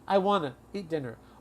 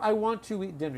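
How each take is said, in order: First: 'Want to' is reduced to 'wanna'. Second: 'Want to' is said as two full words. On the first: "We tell students you can say I wanna. It's a reduction" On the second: "Or I want to eat dinner. You can say both"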